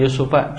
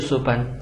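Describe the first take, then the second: First: The word ends on a vowel without n. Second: The word ends with an added n sound. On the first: The speaker calls it right. "ini Yusufa contohnya" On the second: The speaker calls it wrong. "Tidak boleh Yusufan"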